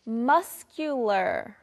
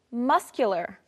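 First: Very slow, drawn-out "muscular"; pronunciation model. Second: Said in the usual way. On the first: Shown as a demonstration. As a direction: stretch "muscular" syllable by syllable. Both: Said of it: "Let's practice our pronunciation".

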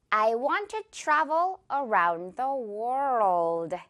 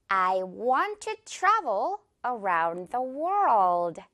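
First: Very slow, clear word by word; slow repeat. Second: Very slow, every word drawn out; slow model sentence. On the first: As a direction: slowly model each word. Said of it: "이 문장 한번 해볼게요". (천천히 따라 말하기) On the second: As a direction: say it slowly word by word. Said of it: "이렇게 말해볼게요". (아주 천천히 또박또박) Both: Shown as a demonstration.

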